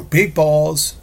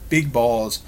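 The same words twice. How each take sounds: First: Sudden high yelled blurt, much higher and louder; Tourette's outburst. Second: Tourette's outburst. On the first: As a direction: blurt it out like an involuntary tic, loud. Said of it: "Tourette's outrageous statement where you just go". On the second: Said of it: "just like that". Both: Shown as a demonstration.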